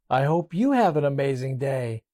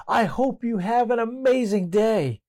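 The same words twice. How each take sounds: First: Said in the usual way. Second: High, cheerful call into the woods; yelling out. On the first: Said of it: "the voice responded". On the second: Retold or imitated. Child yells a kind wish into the woods, high call. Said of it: "he decided to yell out".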